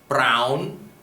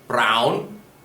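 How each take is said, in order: The two takes are said the same way.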